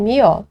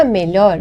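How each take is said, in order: First: "mió" sem LH e sem R final; pronúncia coloquial. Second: Said in the usual way. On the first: Shown as a demonstration. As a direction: diga "mió", terminando em Ó aberto. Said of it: "dizem mió". ("mió", fala popular que come o R final) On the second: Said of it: "Para melhor, dizem mió".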